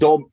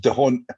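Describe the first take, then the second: First: No H sound is heard after the D. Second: An H sound is heard after the D. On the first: The speaker calls it right. "The H is silent. It's just dom" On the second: The speaker calls it wrong. "Everybody goes dehont. It's, it's not dehont"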